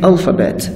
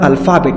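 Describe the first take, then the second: First: The stress is on the first syllable. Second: The stress is on the second syllable. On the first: The speaker calls it right. "nouns are stressed on the first syllable" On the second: The speaker calls it wrong. "استرس را در قطعه ای یعنی دوم سلاب وارد میکنن"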